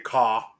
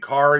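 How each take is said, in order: First: The final r sound is dropped completely. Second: The final r sound is clearly pronounced. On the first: "you say ka" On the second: "instead of saying car"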